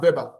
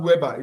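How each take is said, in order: First: "Weber" said with a V sound, vɛba; "Weber" starting with V, like "vay-ber"; "Weber" the German way, V not W; correct German pronunciation. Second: "Weber" said with an English W sound, wɛba; "Weber" starting with a plain W as in "web"; "Weber" read the English way, W not V; wrong pronunciation. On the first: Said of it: "it's pronounced Weber". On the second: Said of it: "it's not pronounced". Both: Shown as a demonstration.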